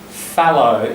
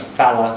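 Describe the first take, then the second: First: The word ends in a full 'oh' vowel. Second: The word ends in a reduced 'uh' vowel. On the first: This is the standard form. "That's the sort of standard" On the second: This is the slang form. "It becomes falla"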